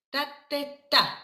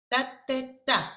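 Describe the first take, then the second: No difference in how they are said.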